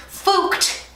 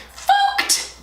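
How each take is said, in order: First: "fooked" with an oo vowel, higher and airy; comic mispronunciation. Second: "fooked" squeaked very high with an oo vowel; comic squeaked mispronunciation. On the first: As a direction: say "fooked" as a comic, half-voiced curse. Jokes about botched eye makeup. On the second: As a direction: squeal "fooked" as a silly exclamation. Repeats the joke word higher. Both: Real, not acted.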